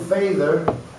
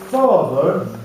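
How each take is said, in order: First: The first vowel is a long 'ay' sound. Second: The first vowel is an open 'ah' sound. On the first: "if it had been A, it would have been father" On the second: "it wasn't A, it was Ah"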